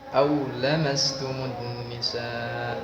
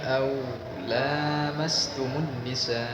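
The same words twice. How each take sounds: First: The vowel in 'la' is kept short. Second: The vowel in 'la' is held long. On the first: It means sexual intercourse. "Pada versi yang lain dibaca pendek" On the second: It means touching, skin contact. "model yang pertama au lamas, la-nya dipanjangkan"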